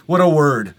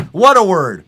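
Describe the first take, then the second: First: Said in the usual way. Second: Higher and louder delight. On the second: Real, not acted. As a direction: savour the word gleefully. Repeats line louder.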